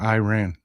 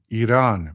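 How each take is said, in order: First: The name is said with a rural Texan drawl. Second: The name is said in a standard, careful way. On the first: "I pronounce it like a hick Texan" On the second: "Pardon me"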